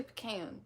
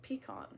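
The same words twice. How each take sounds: First: 'pecan' as puh-CAN, with a short a; rejected pronunciation. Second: 'pecan' as pee-KAHN; long ah in the last syllable of 'pecan'; own pronunciation. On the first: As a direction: flatten the last vowel of 'pecan' to rhyme with 'can'. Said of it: "I don't say pecan". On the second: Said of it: "I say, I say pecan". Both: Shown as a demonstration.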